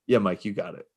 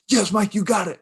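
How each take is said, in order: First: It is said calmly and casually. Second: It is said intensely and forcefully.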